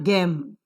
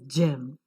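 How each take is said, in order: First: The word begins with a hard g sound. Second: The word begins with a j sound. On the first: The speaker calls it wrong. "it is not gem" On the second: The speaker calls it right. "it is gem. J"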